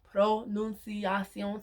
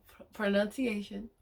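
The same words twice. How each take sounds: First: "Pronunciación" said slowly in Spanish, pro-nun-sya-SYON; careful Spanish pronunciation. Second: "pronunciation" said the English way, pro-NUN-see-AY-shun. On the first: Learner correcting herself, slowly saying "Pronunciación" in Spanish. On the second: Learner catching herself saying "pronunciation" the English way. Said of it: "Pron-, pronuncia". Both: Real, not acted.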